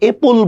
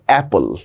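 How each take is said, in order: First: The first vowel is a closed e sound. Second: The first vowel is an open a sound. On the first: The speaker calls it wrong. "আমরা কিন্তু এপল বলি না" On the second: The speaker calls it right. "আমরা বলছি অ্যাপল"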